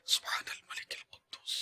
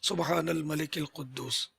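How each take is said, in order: First: It is said in a quieter voice. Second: It is said in a louder voice.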